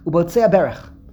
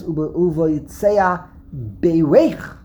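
First: The stress is on the first syllable. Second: The stress is on the last syllable. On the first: It describes the thief as blessed. The speaker calls it wrong. "the accent would be under the bays, and the nikud would be a segel" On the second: The thief is congratulating himself. The speaker calls it right. "it's milara... it's on the last syllable"

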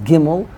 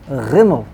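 First: The word begins with a hard stop sound. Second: The word begins with a throaty fricative sound. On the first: "Gimel with a dot is Gimel" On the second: "without a dot is Rimel"

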